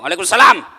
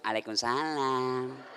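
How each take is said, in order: First: It is said in a firm, curt voice. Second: It is said in a soft, sultry voice.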